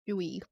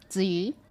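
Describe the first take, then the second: First: The name begins with a 'j' sound. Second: The name begins with a 'ts' sound. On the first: This is the Korean form of the name. "that's her name in Korean" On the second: This is the Chinese form of the name. "how you pronounce it in Chinese"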